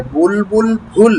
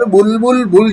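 First: "বুলবুল ফুল" drawn out slowly, last word breathed as bh; slow model of "বুলবুল ফুল" with an aspirated final word; corrected consonant. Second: "বুলবুল বুল" with the last word starting on unaspirated b; wrong consonant. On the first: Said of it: "বুলবুল বুল যেন না হয়ে যায়". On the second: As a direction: show the slip, all three syllables as plain b in "বুলবুল বুল". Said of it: "যেন না হয়ে যায়". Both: Shown as a demonstration.

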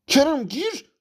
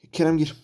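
First: Exasperated shout. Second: Said in the usual way. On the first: Real, not acted. Gamer yells at his player to come on, exasperated shout. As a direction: yell the order at the screen.

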